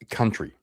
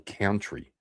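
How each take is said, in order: First: The first syllable sounds like 'cun'. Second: The first syllable sounds like 'count'.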